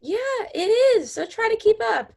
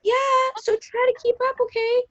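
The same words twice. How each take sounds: First: High, fast snippy comeback; snippy retort. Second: High snippy comeback; snippy retort. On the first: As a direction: snap back, high and quick. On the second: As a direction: snap it back, high. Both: Acted. Acted quarrel, snippy.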